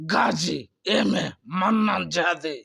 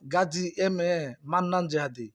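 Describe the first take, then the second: First: The name is said in an exaggerated, theatrical way. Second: The name is said in a plain, ordinary way.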